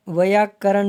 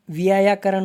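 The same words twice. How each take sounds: First: व्याकरण said as va-yaa-ka-ran; wrong form. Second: व्यायाकरण with an extra yaa, vi-yaa-yaa-ka-ran; correct form. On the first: Teacher rejecting the wrong form, व्याकरण with one yaa. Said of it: "नहीं होता है". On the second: Teacher giving their correct form, व्यायाकरण with doubled yaa. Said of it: "होता है". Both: Shown as a demonstration.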